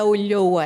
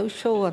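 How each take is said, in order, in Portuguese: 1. O nome é falado com som de 'lh'. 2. O nome é falado com som de 'sh'. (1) "Não é o Lhoa" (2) "no sotaque bonaerense é o Shoah"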